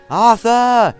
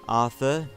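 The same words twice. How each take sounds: First: It is thundered loudly. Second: It is murmured softly.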